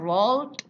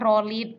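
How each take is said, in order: First: The ending is a plain 'd' sound. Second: The ending is an extra syllable, like 'id'. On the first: The speaker calls it right. "Ini yang akhirannya D" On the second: The speaker calls it wrong. "Kalau yang ini bukan roll it"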